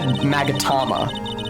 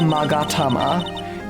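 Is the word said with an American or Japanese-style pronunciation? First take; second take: American; Japanese. First: It is said with American-style vowels and stress. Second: It is said with Japanese-style vowels and rhythm. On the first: The speaker calls it wrong. "embarrassingly American now" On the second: The speaker calls it right. "That is what it's called in real life"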